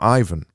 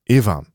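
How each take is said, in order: First: The first vowel sounds like 'eye'. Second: The first vowel sounds like 'i' in 'bit'. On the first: The speaker calls it wrong. "It's not like iPhone" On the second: The speaker calls it right. "It's like the I in bit"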